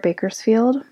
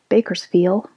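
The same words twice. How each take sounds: First: The final D sound is pronounced. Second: The final D sound is dropped.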